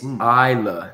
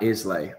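First: The word ends in an 'ah' sound. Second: The word ends in an 'ay' sound. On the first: The speaker calls it right. "It's Isla" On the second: The speaker calls it wrong. "not Islay"

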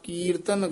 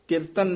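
First: The first vowel is long. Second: The first vowel is short. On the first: The speaker calls it right. "ਕੱਕੇ ਦੀ ਬਿਹਾਰੀ ਜਿਹੜੀ ਹੈ ਦੀਰਘ ਲਾ ਕੇ ਬੋਲਣਾ" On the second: The speaker calls it wrong. "ਕੀਰਤਨ ਨਹੀਂ ਕਹਿਣਾ"

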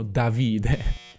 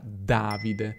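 First: The stress is not on the first syllable. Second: The stress is on the first syllable. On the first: The speaker calls it wrong. "tantissimi stranieri si sbagliano e dicono Davide" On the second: The speaker calls it right. "Davide è una parola sdrucciola; il mio nome si pronuncia Davide"

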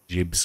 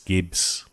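First: The word begins with a soft J sound. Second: The word begins with a hard G sound. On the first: The speaker calls it wrong. "I pronounce it Jibs" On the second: The speaker calls it right. "I think it's Gibbs"

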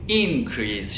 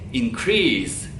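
First: The stress is on the first syllable. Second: The stress is on the second syllable. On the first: It is a noun meaning a rise. "vurgu ilk hecede olduğuna göre ... Tabii ki de bu bir noun" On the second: It is a verb meaning to raise. "Verb olarak kullanımı ise increase şeklinde. Yani crease kısmına ben vurguyu veriyorum"

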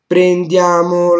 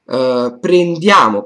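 First: The word stays high, leading into the phrase. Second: The word carries its own falling pitch. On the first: The word is part of a larger phrase. The speaker calls it right. "all the things that precede the falling tone is up" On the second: The word stands alone. The speaker calls it wrong. "you don't say anymore prendiamo"

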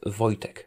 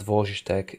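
First: The name is said as 'voy-tech'. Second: The first syllable is not said as 'voy'. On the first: The speaker calls it right. "You can pronounce it as Voy, as in V-O-Y, dash tech" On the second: The speaker calls it wrong. "it's not Wojtek"

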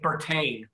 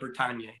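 First: The ending rhymes with champagne. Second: The ending does not rhyme with champagne. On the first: The speaker calls it right. "It's pronounced Bertagne, like champagne" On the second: The speaker calls it wrong. "not Bertagne"

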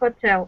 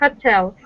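First: The stress is on the second syllable. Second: The stress is on the first syllable. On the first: The speaker calls it right. "надо на второй" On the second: The speaker calls it wrong. "мы делаем ошибку, когда ударение на первый слог"

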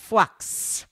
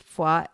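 First: It is said with the medieval pronunciation. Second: It is said with the modern pronunciation. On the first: This is how the name was said long ago. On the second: This is how the town is named today.

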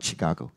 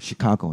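First: The word begins with a hard ch sound. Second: The word begins with a soft sh sound. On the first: The speaker calls it wrong. "not Chicago" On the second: The speaker calls it right. "Chicago, not Chicago"

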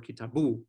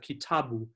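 First: The stress is not on the middle syllable. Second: The stress is on the middle syllable. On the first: The speaker calls it wrong. "You'd never say something like" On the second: The speaker calls it right. "Swahili's penultimate stress. So in Swahili, we have kitabu"

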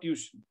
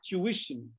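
First: The word uses the common Indian pronunciation. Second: The word uses the standard pronunciation. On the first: The speaker calls it wrong. "not tuition" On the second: The speaker calls it right. "The correct pronunciation is tuition"

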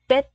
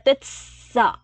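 First: The final consonant is a t sound. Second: The final consonant is an s sound. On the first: The speaker calls it right. "khi mình đọc tuyết á là cái bạch chim của mình là chữ tờ á" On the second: The speaker calls it wrong. "chứ không phải là tuyết sợ"

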